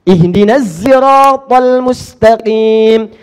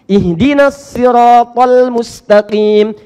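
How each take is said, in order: First: Siratal begins with a z sound. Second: Siratal begins with an emphatic s sound. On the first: "Pakai zai" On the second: "Kita pakai sad"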